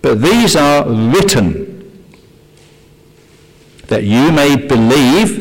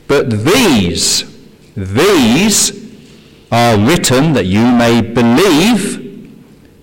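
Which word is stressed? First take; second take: written; these. First: The word written carries the stress. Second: The word these carries the stress. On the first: The focus is on how the signs were recorded. "I want to emphasize the word written" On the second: The focus is on which signs were recorded. "I want to emphasize the word these"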